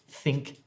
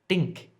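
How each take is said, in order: First: The word starts with a soft th sound. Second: The word starts with a hard d sound. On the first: The speaker calls it right. "instead of think" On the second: The speaker calls it wrong. "it sounds like you're saying dink"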